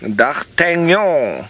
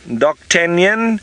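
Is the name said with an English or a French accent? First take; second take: French; English. First: The name is said with a French accent. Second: The name is said with an English accent. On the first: "but the French word" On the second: "if you want to say it like that"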